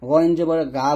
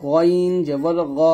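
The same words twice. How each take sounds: First: গা with an open aa, light and plain; thin gaa. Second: Slow গইন জবর গ, rounded heavy o; thick gho. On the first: Teacher mimics a common mistake, thin gaa. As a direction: say গা as Bengali aa. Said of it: "এই প্রত্যেকটা উচ্চারণ কিন্তু ভুল". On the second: Teacher leads repeat-after-me, slow thick gho. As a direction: draw it out, ending thick on গ. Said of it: "সুন্দরভাবে উচ্চারণটা করতে হবে". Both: Shown as a demonstration.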